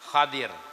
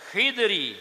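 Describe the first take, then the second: First: The first vowel is a, the second i. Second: The first vowel is i, no second vowel. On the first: "patah kha serta kasrah dad" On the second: "kasrah kha beserta sukun dad"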